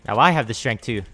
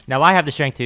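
First: Said in the usual way. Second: Louder gloating taunt at the enemy. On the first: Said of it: "repeats it louder". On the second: Real, not acted. Gamer taunting his opponent mid-fight, louder gloat. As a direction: rub it in, louder. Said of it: "repeat of line 149".

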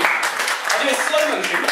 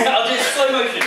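First: Words drawn out slowly, in playful mock slow motion. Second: Said in the usual way. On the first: Shown as a demonstration. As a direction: stretch each word out like a slowed-down replay.

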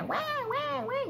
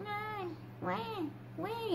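First: Very high, insistent newborn wails; mock infant wailing in quick bursts; imitated strong baby cry. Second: Faint, high, drawn-out newborn wails; small mock baby cries, spaced out; imitated soft baby cry. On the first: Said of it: "la intensidad así bien fuerte". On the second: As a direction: imitate a weak newborn crying very softly. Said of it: "así, pero súper despacito".

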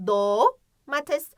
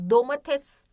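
First: "domates" with long "doo", pause, quick "mates"; stretched O. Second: Said in the usual way. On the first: Shown as a demonstration. Teacher pointing out the O, long first vowel in "domates". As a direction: hold the o in "domates". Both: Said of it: "O sesi var ama başında değil".

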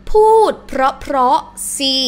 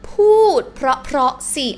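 No difference in how they are said.

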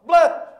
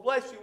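First: "Bless" cut short, loud, single syllable; "Bless" said as one loud clipped syllable. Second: Said in the usual way. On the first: Shown as a demonstration. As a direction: bark "Bless" and drop the you. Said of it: "We make it one". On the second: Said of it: "it's two syllables".

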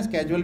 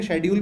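First: स्केड्यूल said with a hard sk sound, as sked-jool; skedule pronunciation. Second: शेड्यूल said with an sh sound, as she-dyool; shedule pronunciation. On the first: Teacher shows students the American way: स्केड्यूल with sk. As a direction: start स्केड्यूल with a crisp sk, American style. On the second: Teacher shows students the British way: शेड्यूल with sh. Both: Shown as a demonstration. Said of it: "दोनों सही pronunciation है".

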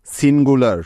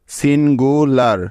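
First: Said in the usual way. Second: সিন গু লার split into three beats with small pauses between; teacher sounding out সিন গু লার piece by piece; syllable by syllable. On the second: Shown as a demonstration. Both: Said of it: "এই শব্দটিতে কি কি syllable পেলাম".

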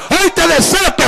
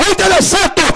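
No difference in how they are said.

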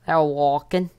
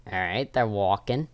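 First: High, loud excited repeat; thrilled squeal. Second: Said in the usual way. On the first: Real, not acted. Seeker walks past hiding spot.

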